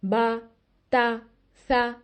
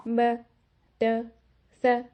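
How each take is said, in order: First: "बा" with molars open, full clear "आ"; open correct fatha. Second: "ब" with jaw locked, vowel trapped inside; muffled short sound, molars shut; closed-jaw fatha. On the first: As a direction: let the voice come out, jaw open. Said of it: "तो ये आवाज़ आनी चाहिए". (सही, खुला फतहा "बा") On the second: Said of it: "फतहा कैसा सुनाई देगा". (गलत, जबड़ा बंद करके "ब") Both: Shown as a demonstration.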